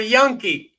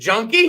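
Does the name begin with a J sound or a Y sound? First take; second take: Y sound; J sound. First: The name begins with a Y sound. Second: The name begins with a J sound. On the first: The speaker calls it right. "It's Y" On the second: The speaker calls it wrong. "do I say that with a J or a Y sound"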